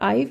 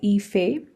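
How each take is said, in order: First: It sounds like the one-syllable word 'I've'. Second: It is said as a two-syllable name. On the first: The speaker calls it wrong. "it's not I've" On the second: The speaker calls it right. "it's called Ife. That's how you pronounce this"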